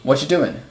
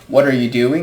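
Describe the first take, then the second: First: Words are dropped and blended together. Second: Every word is pronounced in full. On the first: "we just say" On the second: "Instead of saying"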